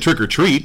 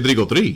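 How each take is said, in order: First: It is said with a plain English accent. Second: It is said with a Spanish accent. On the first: The speaker calls it wrong. "You don't say trick or treat" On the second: The speaker calls it right. "you say Trico 3"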